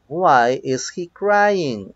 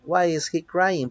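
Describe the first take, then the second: First: Slow, drawn-out example question; slow model reading. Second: Said in the usual way. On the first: Shown as a demonstration. Teacher reads the next example to students, slowly and deliberately. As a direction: stretch each word out for learners.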